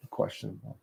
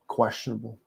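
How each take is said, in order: First: Whispered aside. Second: Said in the usual way. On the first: Shown as a demonstration. Teasing his fans with a whispered "questionable" echo. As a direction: whisper "questionable" under the breath. Repeats the word, second hushed.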